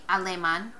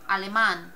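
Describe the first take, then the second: First: The stress is on the second-to-last syllable. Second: The stress is on the last syllable. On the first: The speaker calls it wrong. "we don't say alemán" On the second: The speaker calls it right. "we say alemán"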